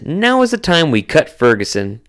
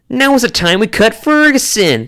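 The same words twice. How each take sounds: First: It is read in the speaker's normal voice. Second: It is read in an imitated character voice.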